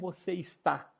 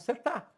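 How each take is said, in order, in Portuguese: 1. Todas as sílabas da frase são pronunciadas. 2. A frase é reduzida a menos sílabas, mais curtas. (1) "a gente não fala como você está" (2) "a gente fala como você está"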